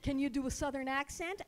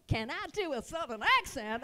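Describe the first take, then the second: First: Said in the usual way. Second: Eager, exaggerated Southern twang; Southern accent. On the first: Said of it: "I'm thinking of calling her". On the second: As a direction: show off a big Southern accent.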